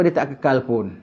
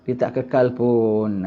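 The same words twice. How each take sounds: First: Said in the usual way. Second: "kekal" stretched out slowly and weighted; slow emphasis. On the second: Shown as a demonstration. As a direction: drag out "kekal" to drive it home. (tekankan "kekal" dengan perlahan)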